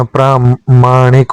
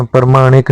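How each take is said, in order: First: प्रामाणिक with a long प्रा; correct form. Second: प्रमाणिक with a short first syllable; wrong form. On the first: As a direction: stretch the आ in प्रामाणिक. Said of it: "प्रामाणिक होता है". (सही उच्चारण प्रामाणिक, लंबा प्रा) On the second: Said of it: "प्रमाणिक नहीं होता". (गलत उच्चारण प्रमाणिक, छोटा प्र) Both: Shown as a demonstration.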